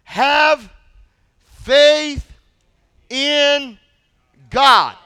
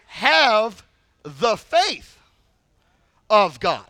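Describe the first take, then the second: First: "Have" "faith" "in" "God" each set apart, louder, with a pause after every word; the familiar version, spaced out and loud; slow, word by word. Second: "Have the faith of God" with slow weight falling on "faith"; corrected wording. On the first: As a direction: proclaim it one word at a time. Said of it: "that's not really what he said". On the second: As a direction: give the corrected phrase gently, letting "faith" land. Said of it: "What he really said was". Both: Shown as a demonstration.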